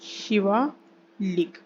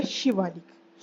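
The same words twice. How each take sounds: First: Shivalik drawn out, split before लिक; slow dictation. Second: Said in the usual way. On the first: Shown as a demonstration. Teacher repeats the range's name for students, Shivalik slowly in two parts. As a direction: say Shivalik very slowly, pausing before the last syllable.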